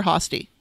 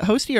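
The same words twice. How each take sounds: First: "Hosty" with an open AH, as HAH-stee; open AH pronunciation. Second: "Hosty" with a long O, as HOH-stee; long O pronunciation. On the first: Host offers the other surname option, "[name]" said HAH-stee. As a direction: say "Hosty" with the vowel of hot. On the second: Host checks a musician's surname, "[name]" said HOH-stee. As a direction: say "Hosty" to rhyme with toasty. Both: Shown as a demonstration. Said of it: "Is it [name] or [name]?".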